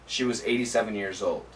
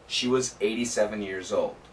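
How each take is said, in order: First: It is spoken a little faster. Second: It is spoken slowly. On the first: "a little bit faster" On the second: "let's say it slowly"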